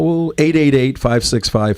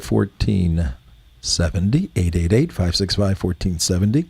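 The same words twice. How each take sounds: First: Said in the usual way. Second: A touch lower and softer, like a public radio host; lightly put-on calm public broadcaster read; PBS voice. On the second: Shown as a demonstration. Host giving the phone number in a lightly put-on PBS voice. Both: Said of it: "That's my P B S".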